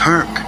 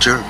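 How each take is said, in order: First: The name begins with an H sound. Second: The name begins with a J sound. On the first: The speaker calls it right. "the name is pronounced Herc" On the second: The speaker calls it wrong. "not Jerk"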